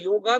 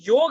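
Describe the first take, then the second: First: The word ends with an added a vowel. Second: The word ends on the consonant g. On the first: The speaker calls it wrong. "योगा भी नहीं" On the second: The speaker calls it right. "ये योग है"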